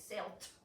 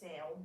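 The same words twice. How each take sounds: First: The ending is not a plain d sound. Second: The ending is a plain d sound. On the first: The speaker calls it wrong. "We don't say sailed" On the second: The speaker calls it right. "we say sailed"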